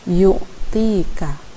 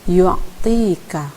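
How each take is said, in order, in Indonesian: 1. Tidak ada bunyi 'a' samar yang terdengar di ain. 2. Bunyi 'a' samar terdengar di ain. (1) "bukan yu'tika" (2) "ada kesan a sedikit, misalnya yu'tika"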